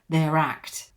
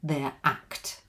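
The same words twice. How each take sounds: First: The R runs smoothly into the following vowel. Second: The two words are said apart without linking. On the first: This is the normal everyday way to say it. "normally you would probably link this and make it a linking R here" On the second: It sounds more dramatic and stressed. "as a newsreader, I say it more clearly"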